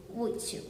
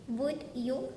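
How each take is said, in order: First: "would you" run together as wudja; blended. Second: Said in the usual way. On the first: Shown as a demonstration. Teacher shows learners "would you" blended into wudja. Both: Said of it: "two sounds blend in together".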